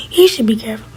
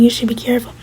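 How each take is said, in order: First: HE pitched up, the rest dropping; stress on HE. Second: Said in the usual way. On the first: Acted. [name] throws the warning back, stress on HE. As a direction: turn it back with weight on HE.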